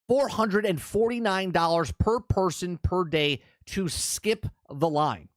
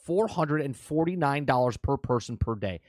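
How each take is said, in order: First: It is said slowly. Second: It is said at normal speed.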